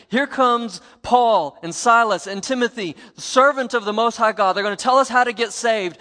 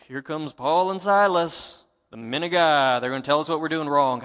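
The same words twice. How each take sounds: First: Loud, higher, eager announcement; sincere announcing. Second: Mocking. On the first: Retold or imitated. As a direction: herald them in gladly to the crowd. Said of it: "she was not saying". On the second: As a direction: drag it out to ridicule them. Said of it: "I believe that she was mocking them".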